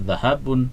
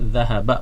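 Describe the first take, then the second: First: The word ends in a short u plus n. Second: The word ends in a short a vowel. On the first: It is read as a noun with tanwin. The speaker calls it wrong. "bukan zahabun" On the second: It is read as a verb. The speaker calls it right. "maka dia dibaca zahaba"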